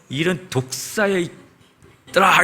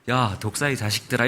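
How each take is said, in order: First: It is said harshly and angrily. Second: It is said softly and gently.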